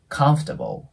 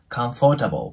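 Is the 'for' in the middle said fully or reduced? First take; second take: reduced; fully. First: The middle 'for' is reduced to a brief f. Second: The middle 'for' syllable is pronounced fully. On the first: The speaker calls it right. "このfor の部分がfor ではなく、もう下唇の粘膜あたりを噛んで、そのまま空気を出すだけ" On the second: The speaker calls it wrong. "comfortable っていう感じで発音される方多いと思うんですけど、実はこれそういう風には発音しないんですね"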